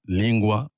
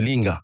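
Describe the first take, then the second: First: The middle consonant is g followed by w. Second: The middle consonant is a plain hard g. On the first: The speaker calls it right. "le G U se prononce OU" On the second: The speaker calls it wrong. "normalement en français on dirait linga"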